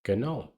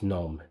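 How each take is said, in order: First: The G at the start is pronounced. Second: The G at the start is silent. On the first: "she was pronouncing it gnome" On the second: "The G is silent"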